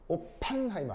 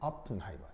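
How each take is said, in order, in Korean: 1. 두 번째 모음은 완전하고 분명한 'e'예요. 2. 두 번째 모음은 약하고 줄어든 소리예요. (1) "오펜하이머 아니에요" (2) "에가 약한 발음이기 때문에 약하게 발음해야 돼요"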